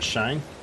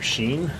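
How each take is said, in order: First: The word sounds like 'shine'. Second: The word does not sound like 'shine'. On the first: The speaker calls it wrong. "not Shine" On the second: The speaker calls it right. "So I think Prairie du Chien"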